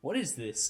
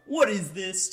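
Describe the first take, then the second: First: Said in the usual way. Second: Mild surprised question, louder and rising at the end; rising disbelief. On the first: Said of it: "to then me going". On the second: Retold or imitated. Gamer retelling his reaction to the trailer, first disbelief. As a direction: ask it with a lift of disbelief. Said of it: "it goes from, What is this? to".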